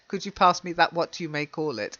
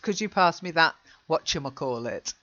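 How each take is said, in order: First: The final words are said separately and in full. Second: The final words are blended into one quick word. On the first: The speaker calls it wrong. "But we'd never say that" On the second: The speaker calls it right.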